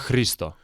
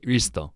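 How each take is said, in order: First: The name starts with a light H sound. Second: The name starts directly with the R sound. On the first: The speaker calls it right. "You have to say the H" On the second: The speaker calls it wrong. "you don't pronounce the H. You say Risto"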